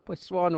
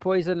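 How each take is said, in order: First: It is said with a French-sounding accent. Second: It is said with a plain English accent. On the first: The speaker calls it right. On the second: The speaker calls it wrong.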